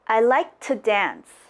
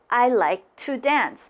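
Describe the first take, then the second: First: The word 'to' is reduced to just a t. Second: The word 'to' is said fully with its vowel. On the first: "get rid of the O and say" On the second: "it's okay to say I like to dance"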